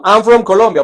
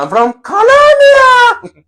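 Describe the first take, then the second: First: Said in the usual way. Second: Very high, slow pageant-queen voice; beauty queen answer. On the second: Pretend. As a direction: gush it like a beauty pageant contestant. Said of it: "Si fuera el reinado".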